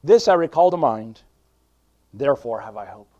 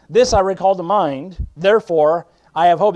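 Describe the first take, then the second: First: Said in the usual way. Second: Preaching. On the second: Acted. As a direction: lean into each word like a revival preacher. Rereads verse with mounting force.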